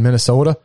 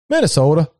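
First: Said in the usual way. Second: "Minnesota" with long Midwestern o; light imitation of a Minnesota accent. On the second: Recalling people up north, "Minnesota" in their Midwestern accent. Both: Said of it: "You know that accent?".

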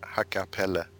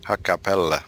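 First: "Hakkapelle" as hakka-pel-le, softly; guest's own pronunciation. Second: "Hakkapelle" the Finnish way, with held consonants; Finnish pronunciation. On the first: Guest showing hosts the name, "Hakkapelle" said softly. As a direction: say "Hakkapelle" evenly, ending in a short e. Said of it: "I would pronounce it". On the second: Guest showing how Finns say it, "Hakkapelle" in Finnish. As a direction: say "Hakkapelle" as a Finn would. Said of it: "from Finland, they would say". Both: Shown as a demonstration.

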